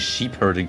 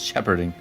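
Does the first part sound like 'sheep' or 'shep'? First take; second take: sheep; shep. First: The first part has a long 'sheep' vowel. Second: The first part has a short 'shep' vowel. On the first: The speaker calls it wrong. "I always want to say sheep herding for some reason" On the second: The speaker calls it right. "No, it's shepherding"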